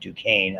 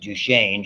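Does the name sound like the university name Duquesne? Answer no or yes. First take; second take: yes; no. First: The name sounds like the university name Duquesne. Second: The name is said the speaker's own usual way. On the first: This is how someone else said it. "She pronounced it Duquesne, I guess. Like the university" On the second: This is how the speaker says it. "I pronounce it Duchenne"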